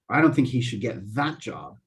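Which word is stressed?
that. The word 'that' carries the main stress. He should get a different job. "I think he should get a different job"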